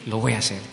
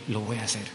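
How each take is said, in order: First: Said in the usual way. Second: Hushed, earnest promise, softer; quiet promise. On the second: Retold or imitated. Telling God softly he will do it, hushed vow.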